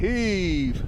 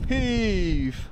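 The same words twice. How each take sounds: First: Straining shout of heave; pulling hard and calling out; tug of war. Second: Higher straining shout of heave; tug of war. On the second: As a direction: heave it out with full effort. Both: Real, not acted. Tug of war effort call.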